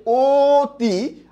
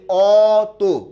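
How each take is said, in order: First: অতি slow, first vowel like ও, as "oti", rising at the end; closed o sound. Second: অত slow and louder with open অ, as "ɔto", falling; open o sound. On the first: Teacher repeating the contrast for students, slow "oti". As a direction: say অতি slowly with a rounded o and a lift. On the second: Teacher finishing the contrast for students, slow loud "ɔto". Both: Shown as a demonstration. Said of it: "দুটো কিন্তু দুই রকম উচ্চারণ হয়েছে".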